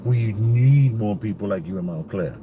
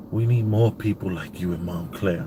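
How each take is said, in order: First: Mildly desperate plea, leaning on NEED; retold desperation. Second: Said in the usual way. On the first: Shopper pleading with a stranger who defied masks, mildly desperate. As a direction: imitate his understated desperation, stretching "need". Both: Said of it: "he had this desperation in his voice".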